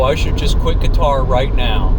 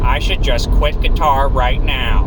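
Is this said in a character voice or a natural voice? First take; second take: natural; character voice. First: It is said in the speaker's ordinary voice. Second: It is said in a put-on cartoon voice. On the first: "And I say that in that tone" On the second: "that's my horrible Squidward impression"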